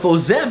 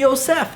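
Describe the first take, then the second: First: The middle consonant is a buzzing Z sound. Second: The middle consonant is a hissing S sound. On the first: The speaker calls it wrong. "instead of Osef" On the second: The speaker calls it right. "that should be Osef"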